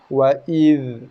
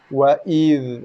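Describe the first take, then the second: No difference in how they are said.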